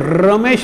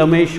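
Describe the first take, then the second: First: The name starts with a clear R sound. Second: The name starts with an L sound. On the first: The speaker calls it right. "र म्हणता येत ना" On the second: The speaker calls it wrong. "मी लमेश म्हणत होतो"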